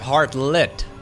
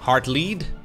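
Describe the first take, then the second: First: The last syllable sounds like 'lit'. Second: The last syllable sounds like 'lead'. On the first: The speaker calls it right. "I've been pronouncing it as Heartlit" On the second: The speaker calls it wrong. "I've heard some people pronounce it as Heartlead"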